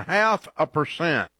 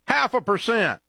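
First: Said in the usual way. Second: "Half" punched much higher; emphatic repeat. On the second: Real, not acted. Ad host hammering home a poor savings rate, emphatic repeat. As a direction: repeat it with a high-pitched stress on "Half".

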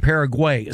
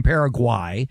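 First: Paraguay as "PARA-gway"; "Paraguay" with an "ay" last vowel; "gway" ending. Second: Paraguay as "para-GWAI"; "Paraguay" with an "eye" last vowel; "gwai" ending. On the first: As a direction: end Paraguay rhyming with day. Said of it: "he keeps saying". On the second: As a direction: end Paraguay rhyming with why. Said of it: "play-by-play guy is saying". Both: Retold or imitated.

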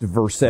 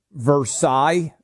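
First: Versailles said as "ver-SALES"; local Kentucky pronunciation. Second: Versailles said as "ver-SIGH"; French-style pronunciation. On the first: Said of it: "being pronounced Versailles in". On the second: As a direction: say Versailles with silent Ls, ending in sigh. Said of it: "it's like Versailles being pronounced". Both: Shown as a demonstration.

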